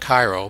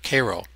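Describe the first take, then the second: First: It is said the way other countries say it. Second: It is said the local American way. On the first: The speaker calls it wrong. "Not Cairo" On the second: The speaker calls it right. "but Cairo"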